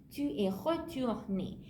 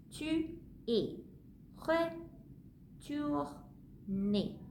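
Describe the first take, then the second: First: Said in the usual way. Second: Slow, with a long pause before retourné; slow model sentence. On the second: Shown as a demonstration. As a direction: spell it out slowly for the learner.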